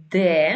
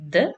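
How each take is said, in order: First: Ντε said as a full syllable "de"; name the letter ντε as "deh", with a clear e vowel. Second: Ντε cut to a short bare d; letter sound. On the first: Teacher giving the letter's name, ντε demonstrated as "de". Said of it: "Η ονομασία του είναι ντε". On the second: Teacher giving the letter's pronunciation, ντε demonstrated as short "d". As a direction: reduce ντε to the consonant d, barely any vowel. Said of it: "η προφορά του είναι ντε". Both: Shown as a demonstration.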